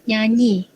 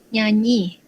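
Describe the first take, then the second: The two takes are said the same way.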